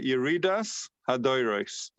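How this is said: The final consonants sound like s.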